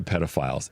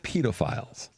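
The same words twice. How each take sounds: First: It is said with an American pronunciation. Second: It is said with a British pronunciation. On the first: This is the old way of saying it. "It's no longer pedophiles" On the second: This is the new way of saying it. "a British uh, crime drama ... we've changed the enunciation of a word"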